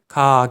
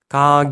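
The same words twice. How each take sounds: First: The consonant is Korean-style, sounding close to k. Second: The consonant is a soft, voiced g. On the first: The speaker calls it wrong. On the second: The speaker calls it right.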